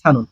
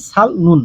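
First: সানুন as sa-nun, no l, falling at the end; correct pronunciation. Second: সাল নুন split in two, l sounded; wrong pronunciation. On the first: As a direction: say সানুন in one piece, dropping the l. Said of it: "হবে কি?". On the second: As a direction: say সাল নুন keeping the l before n. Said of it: "এভাবে উচ্চারণ করলে হবে না". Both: Shown as a demonstration.

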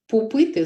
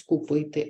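First: «пупити» with п in place of к; «пупити» childish echoing; child's slip. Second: Said in the usual way. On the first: Shown as a demonstration. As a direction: say «пупити» with a p copied from the second syllable. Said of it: "вони часто говорять". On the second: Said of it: "замість".

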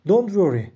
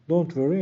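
First: Louder, raised model read of "Don't worry"; model phrase reading. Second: Said in the usual way. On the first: Shown as a demonstration. Teacher presenting the phrase to learners, raised and clear. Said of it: "teacher models the English phrase". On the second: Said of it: "teacher repeats phrase in passing".

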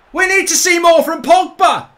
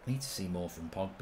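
First: Very loud, high celebratory shout; triumphant yelling. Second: Very quiet, low-pitched aside; low muttered remark. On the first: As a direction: bellow it in goal-scoring joy. Shouts own remark after goal. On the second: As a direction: say it low, almost to yourself. Remark before Pogba's goal. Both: Real, not acted.

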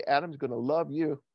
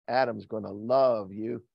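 First: Said in the usual way. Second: Slow and lower, LOVE stretched long; drawn-out LOVE. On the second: Retold or imitated. God telling Eve about Adam, slow drawn-out LOVE. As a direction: linger on the word LOVE.

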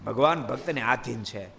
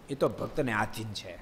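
First: ભગવાન lifted and firm, rest falling; preacher's emphatic refrain; stress on ભગવાન. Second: Soft aside. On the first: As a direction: lean on ભગવાન as the key word. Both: Shown as a demonstration.

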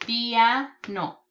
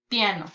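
First: PIANO broken into "pia", pause, "no"; in syllables. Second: Said in the usual way. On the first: Shown as a demonstration. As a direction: separate the two syllables of "piano". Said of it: "sílabas".

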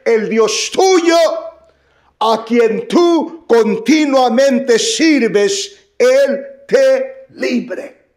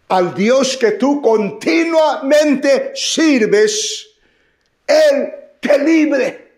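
First: Higher, slow, solemn king blessing Daniel; king's blessing. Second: High, slow, shouted king's blessing. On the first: Preacher voicing the king to Daniel, slow and solemn. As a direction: draw out the blessing like a hopeful king. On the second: Preacher shouts the king's words to Daniel, slow and loud. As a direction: proclaim it at full force to Daniel. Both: Acted.

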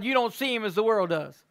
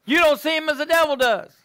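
First: Said in the usual way. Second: Higher, louder, You don't pressed hard; emphatic repeat. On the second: Shown as a demonstration. Preacher answering the devil, emphatic louder repeat. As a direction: punch the repeat with force. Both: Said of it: "repeated with more force".

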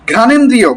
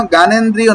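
First: "ঘ্রাণেন্দ্রিয়" opening on a puffed ghr; emphatic ghr in "ঘ্রাণেন্দ্রিয়"; aspirated gh. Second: "জ্ঞানেন্দ্রিয়" opening on g, no puff or r; unaspirated start to "জ্ঞানেন্দ্রিয়"; wrong plain g. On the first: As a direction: model "ঘ্রাণেন্দ্রিয়" deliberately, with breathy gh and r. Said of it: "জ্ঞানেন্দ্রিয় না হয়ে যায়". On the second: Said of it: "যেন জ্ঞানেন্দ্রিয় না হয়ে যায়". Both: Shown as a demonstration.

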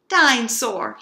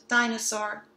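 First: Dinosaur growled, much louder like a little monster. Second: Said in the usual way. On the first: Acted. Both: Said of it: "he growled".

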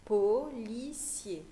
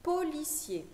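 First: Policier split into slow separate syllables. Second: Said in the usual way. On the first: Shown as a demonstration. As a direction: sound out Policier very slowly for a young pupil.

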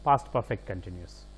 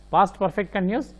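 First: past perfect continuous said lower and softer, pitch falling to close; falling final tune. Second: past perfect continuous said quicker, pitch rising on past; rising list tune. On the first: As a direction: close the pair, voice dropping down. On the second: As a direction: read it as an open item, voice going up. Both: Shown as a demonstration.

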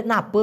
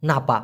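First: "না প" ending in a loose schwa; casual Malay "না প", no open a at the end; shortened colloquial form. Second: "না পা" with a full open "a"; lower-pitched "না পা", final vowel clearly open; shortened form, open ending. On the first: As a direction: say "না প" with the last vowel reduced to "uh". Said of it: "এটাকে ছোট করে ওরা বলে". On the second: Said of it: "অথবা". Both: Shown as a demonstration.

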